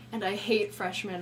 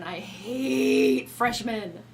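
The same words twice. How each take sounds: First: Said in the usual way. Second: Hate stretched slow; slow emphatic repeat. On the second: Real, not acted. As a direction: drag out hate with contempt.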